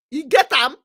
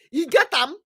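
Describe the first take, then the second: No difference in how they are said.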